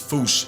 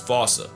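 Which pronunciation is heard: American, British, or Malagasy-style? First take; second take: Malagasy-style; British. First: It is said the Malagasy-style way, like 'foosh'. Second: It is said the British way, like 'fossa'. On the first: This is closest to the original pronunciation. "if you want to feel better than everyone, it's Foosh" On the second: This is how the English say it. "England pronounces it as Fossa"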